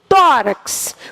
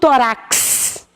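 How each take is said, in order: First: The stress is on the first syllable. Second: The stress is on the last syllable. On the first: The speaker calls it right. "A tônica não está na última, está na penúltima" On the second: The speaker calls it wrong. "Eu não digo tórax"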